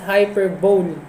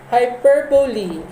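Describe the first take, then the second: First: The word ends like 'bowl', final syllable dropped. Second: The word ends with a pronounced 'lee' syllable. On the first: The speaker calls it wrong. "Mali po yun. That's wrong, wrong, and wrong" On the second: The speaker calls it right. "Hyperbole is the correct pronunciation"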